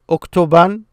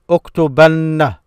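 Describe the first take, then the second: First: The word ends in a short, plain n. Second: The word ends in a doubled nn plus vowel.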